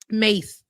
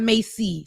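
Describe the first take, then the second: First: The name is said with one syllable. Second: The name is said with two syllables. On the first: The speaker calls it right. "He said Mace, not Macy. ... Mace like the spray" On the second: The speaker calls it wrong. "I was saying it wrong. It ain't Macy"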